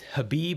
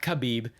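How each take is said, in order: First: The name begins with a soft h sound. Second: The name begins with a harsh kh sound. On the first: The speaker calls it right. "but it's Habib" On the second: The speaker calls it wrong. "It's not Khabib"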